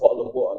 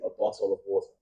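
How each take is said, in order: First: The words are said quickly with reduced consonants. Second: The words are said slowly with every consonant clear. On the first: "I personally would say war" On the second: "super formal and I'm speaking slow"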